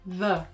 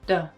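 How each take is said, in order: First: The word begins with a th sound. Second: The word begins with a d sound. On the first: "The majority of English speakers will pronounce this as v" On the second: "uses a D sound at the beginning of the word"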